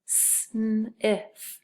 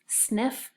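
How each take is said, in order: First: "sniff" stretched into s, n, i, f; tapping out sounds. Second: Said in the usual way. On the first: Shown as a demonstration. Teacher tapping the first part, sound by sound. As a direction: sound out "sniff" one sound at a time. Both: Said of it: "So the first part".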